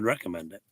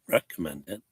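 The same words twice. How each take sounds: First: The stress falls on an unusual syllable. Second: The stress falls on the usual syllable. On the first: The speaker calls it wrong. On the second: The speaker calls it right.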